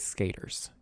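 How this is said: It is said in a thick Southern accent. This is how someone with a very strong Southern accent says it. "if you're like got a really thick accent, you say skaters"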